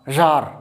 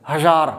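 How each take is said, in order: No difference in how they are said.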